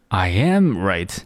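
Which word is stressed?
am. The stress is on the word am. It stresses that this is a fact. "第二种哒哒哒I am right"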